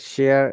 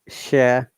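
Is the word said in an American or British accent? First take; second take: American; British. First: It is said with an American accent. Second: It is said with a British accent. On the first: "the American way" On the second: "the British I P A"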